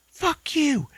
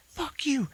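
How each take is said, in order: First: Much higher put-on shout; hammed-up high yell; mock furious Ashley. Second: Whispered high put-on curse; mock hissed curse. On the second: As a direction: spit it in a whisper. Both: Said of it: "Ashley's like".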